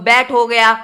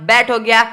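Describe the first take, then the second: The two takes are said the same way.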